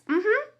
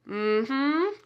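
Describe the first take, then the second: First: It is said in a happy, positive tone. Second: It is said in a sarcastic, doubtful tone. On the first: The speaker sincerely agrees. "happy, positive, yes, mm-hmm. That's yes" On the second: The speaker does not believe what was said. "you're being sarcastic... Did you hear that tone of voice?"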